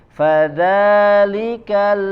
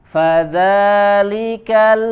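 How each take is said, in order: The two takes are said the same way.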